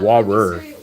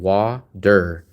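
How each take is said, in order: First: The middle consonant sounds like a T. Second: The middle consonant sounds like a D. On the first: "English say water with a T" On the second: "I say it more with a D"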